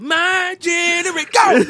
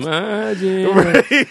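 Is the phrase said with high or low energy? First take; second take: high; low. First: It is said lively, with lots of energy. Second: It is said flatly, with little energy. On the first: The speaker calls it right. "No, you got to be like" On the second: The speaker calls it wrong. "you just didn't say it with no energy. You was like"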